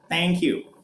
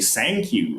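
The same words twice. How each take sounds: First: Thank begins with a t sound. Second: Thank begins with an s sound. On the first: "They would use the t sound" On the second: "with an S sound"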